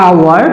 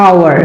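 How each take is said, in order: The two takes are said the same way.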